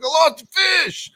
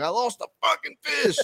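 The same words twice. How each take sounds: First: Much higher, louder, shouting; retold exasperated shout; frustrated shout. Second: Much higher, strained disbelief; pitched-up cry of frustration; mock exasperated wail. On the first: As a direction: yell it out in defeat, pitched way up. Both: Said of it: "I'm like".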